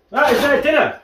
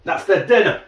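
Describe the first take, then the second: First: "That is their dinner" said much higher, "is" spelled out, falling on "dinner"; emphatic repeat, higher. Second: Said in the usual way. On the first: Shown as a demonstration. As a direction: stress the full "is", pitch up high.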